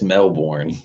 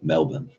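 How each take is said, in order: First: The word is said fully, as spelled. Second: The word is said clipped, in an Australian way. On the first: "It says Melbourne" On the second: "it's pronounced by them Melbourne"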